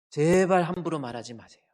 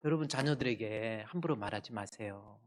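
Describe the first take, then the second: First: Stretched, loud stress on 제발; emphatic plea. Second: Said in the usual way. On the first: Real, not acted. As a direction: implore them, hitting 제발 hard and long. Preacher repeats the plea with force.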